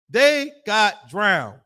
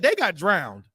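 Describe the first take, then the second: First: They got drowned dragged out very slow, each word weighed; solemn preacher drawing out the verdict; slow emphatic repeat. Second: Said in the usual way. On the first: Shown as a demonstration. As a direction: let it sink in, very slowly.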